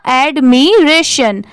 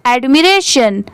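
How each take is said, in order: First: एडमिरेशन slowly split as ad, mi, ration; syllable by syllable. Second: Said in the usual way. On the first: Shown as a demonstration. Teacher joining the parts just taught, एडमिरेशन slowly in pieces. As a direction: stretch and separate the parts of एडमिरेशन. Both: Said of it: "पूरा क्या हो जाएगा".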